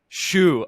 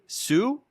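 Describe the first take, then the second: First: The name begins with a 'sh' sound. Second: The name begins with a plain 's' sound. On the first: The speaker calls it right. "Shoe, like the shoe on your foot" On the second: The speaker calls it wrong. "I had like a three three chances and I butchered all of them"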